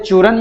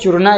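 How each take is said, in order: First: The word ends on the consonant n. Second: The word ends with a final a vowel. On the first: This is how the word is spoken. "लेकिन चूरन बोला जाता है" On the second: This is how the word is written. "इस तरह से लिखा जाता है"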